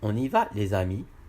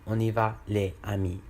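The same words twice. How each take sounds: First: A z sound links les to amis. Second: No z sound joins les and amis. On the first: The speaker calls it right. "on dit ... il faut faire la liaison" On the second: The speaker calls it wrong. "on ne dit pas"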